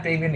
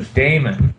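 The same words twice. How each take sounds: First: Damien said with three syllables, DAY-mee-un; name with an i. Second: Damon said with two syllables, DAY-mun; name without i. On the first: Host correcting the wrong character name, Damien as DAY-mee-un. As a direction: say Damien with an ee in the middle. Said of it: "It wasn't a complete ripoff". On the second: Host giving the corrected character name, Damon as DAY-mun. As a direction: say Damon with no ee in the middle. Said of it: "It was Damon". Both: Shown as a demonstration.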